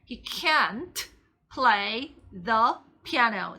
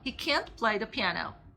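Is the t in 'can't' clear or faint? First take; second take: clear; faint. First: It is said slowly with a clearly audible t. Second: It is said fast with the t barely heard. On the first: "제가 이렇게 천천히 하면 이제 T가 정말 도드라지겠지만" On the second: "들릴 듯 말 듯 하잖아요"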